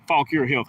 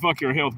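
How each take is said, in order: First: The first word sounds like 'faw-keer'. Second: The first word sounds like 'fuck your'. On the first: The speaker calls it right. "but it's Fauquier" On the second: The speaker calls it wrong. "a lot of people pronounce it Fuck Your Health"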